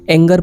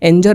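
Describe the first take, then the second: First: The middle consonant is a hard g. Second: The middle consonant is a j sound. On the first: The speaker calls it right. "एंगर पढ़ेंगे" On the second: The speaker calls it wrong. "एंजर ना पढ़कर"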